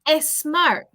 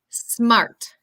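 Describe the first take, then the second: First: An extra e vowel comes before the s. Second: The word starts directly with the s sound. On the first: The speaker calls it wrong. "the tendency is to say e" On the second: The speaker calls it right. "Tenemos como una letra S bien pronunciada"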